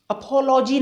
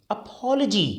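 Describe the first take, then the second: First: "अपॉलजी" as uh-po-LO-jee; full long o after the l in "अपॉलजी"; mispronunciation. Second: "अपॉलजी" as uh-POL-uh-jee; correct pronunciation. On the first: Teacher showing the wrong version, "अपॉलजी" as uh-po-LO-jee. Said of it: "नहीं". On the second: Teacher correcting learners, "अपॉलजी" as uh-POL-uh-jee. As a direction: stress POL, weaken the next vowel in "अपॉलजी". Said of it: "अपॉलजी नहीं". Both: Shown as a demonstration.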